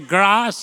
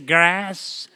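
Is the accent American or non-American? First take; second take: non-American; American. First: It is said in a non-American accent. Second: It is said in an American accent.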